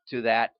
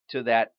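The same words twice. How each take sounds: The two takes are said the same way.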